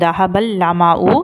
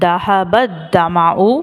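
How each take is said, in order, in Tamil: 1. இரண்டாவது சொல் dhad ஒலி இல்லாமல் தொடங்குகிறது. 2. இரண்டாவது சொல் கனமான dhad ஒலியுடன் தொடங்குகிறது. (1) "அப்படி இல்லை அப்படின்னா என்ன சொல்கிறோம்" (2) "மஹரஜோடைய உச்சரிப்பில் இதை வந்து துவாத் அப்படின்னு சொல்லி நான் ப்ரொனவுன்ஸ் பண்ணேன்"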